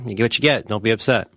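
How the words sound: It is said in a tough, resigned tone.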